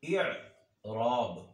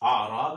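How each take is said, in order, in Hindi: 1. शब्द 'i' स्वर से शुरू होता है। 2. शब्द 'a' स्वर से शुरू होता है। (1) "आराब नहीं बल्कि इराब होता है" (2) "आराब नहीं होता"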